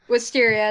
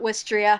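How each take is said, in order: First: The word is said with four syllables. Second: The word is said with three syllables. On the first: The speaker calls it right. "Wisteria, not Wistria" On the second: The speaker calls it wrong. "not Wistria"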